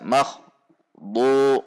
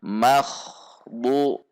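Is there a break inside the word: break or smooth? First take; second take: break; smooth. First: There is a short stop between the syllables. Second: The syllables flow together without any break. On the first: The speaker calls it wrong. "tidak dibaca makh bu, jadi berhenti dahulu, nah itu tidak diperbolehkan" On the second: The speaker calls it right. "antara akh bu tidak ada jeda"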